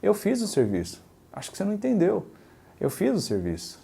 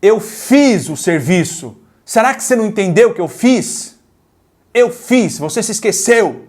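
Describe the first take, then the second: First: Softer, patient and reassuring; soft, even, calm restatement. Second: Higher, louder, accusing complaint; irritated tone. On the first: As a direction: gently explain it, no blame. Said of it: "Agora eu vou falar com outro tom". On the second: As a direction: snap it out like you're fed up with being doubted. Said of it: "Eu vou falar uma coisa com dois tipos de tonalidade". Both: Shown as a demonstration.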